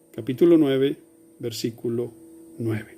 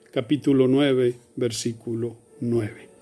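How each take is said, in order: Both takes have the same delivery.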